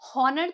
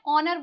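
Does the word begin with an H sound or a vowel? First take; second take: H sound; vowel. First: The word begins with an audible H sound. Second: The word begins directly with a vowel sound. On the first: The speaker calls it wrong. "हॉनर तो नहीं बोलते" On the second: The speaker calls it right. "ऑनर बोलते हैं"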